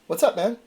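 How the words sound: It is said timidly, sounding terrified.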